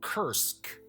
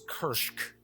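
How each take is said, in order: First: It is said with a plain 's' sound. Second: It is said with an 'sh' sound. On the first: "some people pronounce it" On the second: "like there's an H in there"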